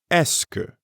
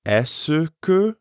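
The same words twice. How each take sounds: First: "Est-ce que" run together fast, like "ess-kuh"; quick blended form. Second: "Est-ce que" with every syllable clear, the "que" fully pronounced; careful full pronunciation. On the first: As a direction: swallow it into one quick word. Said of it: "it's usually pronounced est-ce que when it's said quickly". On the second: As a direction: spell out each sound of "Est-ce que". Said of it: "Notice the difference". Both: Shown as a demonstration.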